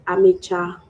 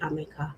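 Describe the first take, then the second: First: The middle consonant is a ch sound. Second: The middle consonant is a k sound. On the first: "If you spell it A M I C A, you would pronounce it Amicha" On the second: "If you spell it A M I K A, it will be Amika"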